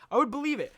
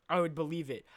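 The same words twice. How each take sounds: First: Excited repeat. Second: Said in the usual way. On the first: Shown as a demonstration.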